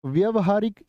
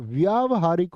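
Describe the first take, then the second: First: "व्यवहारिक" said as vyavahaarik, short vya; "व्यवहारिक" with a short व्य; wrong short first vowel. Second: "व्यावहारिक" said as vyaavahaarik, long vyaa; "व्यावहारिक" with a long व्या; correct long first vowel. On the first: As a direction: keep the opening of "व्यवहारिक" short. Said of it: "नहीं भैया". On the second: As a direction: stretch the opening of "व्यावहारिक" to vyaa. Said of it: "इक जुड़ा हुआ व्याव हो जाएगा". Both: Shown as a demonstration.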